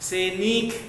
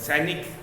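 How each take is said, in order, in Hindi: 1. न के बाद का स्वर लंबा बोला जाता है। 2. न के बाद का स्वर छोटा रखा जाता है। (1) "ये भी गलत है।" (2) "न पे न कम देर के लिए बोला जाता है"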